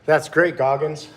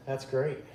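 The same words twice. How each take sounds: First: Said in the usual way. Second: Said again much softer, to himself; quiet repeat. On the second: Real, not acted. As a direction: drop it to an aside.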